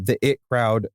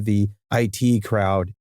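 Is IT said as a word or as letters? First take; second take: word; letters. First: IT is said as the single word it. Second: IT is spelled out as two letters. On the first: "I'm saying it both ways" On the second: "I'm saying it both ways"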